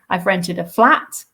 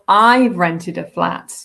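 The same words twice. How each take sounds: First: The stress falls on the word flat. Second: The stress falls on the word I've. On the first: It is a flat, not a house. "it's not a house, it's a flat" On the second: The speaker did it, not someone else. "not my parents, not my partner, but me"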